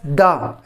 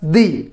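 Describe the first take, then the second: First: It is said in its before-consonant form. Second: It is said in its before-vowel form. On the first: "before the consonant sounds, we have to pronounce it as the" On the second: "When we use the with the vowel sounds, it is to be pronounced as the"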